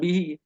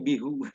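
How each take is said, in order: First: The word ends with an 'ee' vowel. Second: The word ends with an 'oo' vowel. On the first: This is the usual standard reading. "Mereka baca bukan bihi" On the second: Some dialect speakers read it this way. "tapi bihu"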